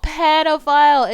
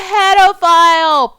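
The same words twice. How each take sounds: First: Pedophile said again, higher, falling and firm; outraged repeat. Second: Slow, high, loud, stretched-out pedophile; drawn-out outraged cry. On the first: Vlogger repeating her verdict on the man, firmer and falling. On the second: Vlogger naming the man in the film, stretched outraged cry. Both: Real, not acted.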